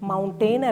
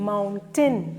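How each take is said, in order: First: The second syllable has a full 'ay' vowel. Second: The second syllable is reduced to 'tn'. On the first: The speaker calls it wrong. "മൗണ്ടെയിൻ അല്ല" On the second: The speaker calls it right.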